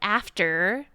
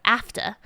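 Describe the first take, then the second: First: Every syllable of the word is clearly pronounced. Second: The word is slurred, with sounds only partly pronounced. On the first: "instead of like after" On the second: "she would say like after"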